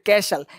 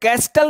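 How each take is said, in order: First: No t sound is heard after the s. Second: A t sound is heard after the s. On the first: The speaker calls it right. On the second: The speaker calls it wrong.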